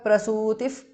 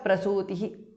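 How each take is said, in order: First: The word ends with an f-like sound. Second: The word ends with an h sound. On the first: The word joins the next word. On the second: The word stands on its own.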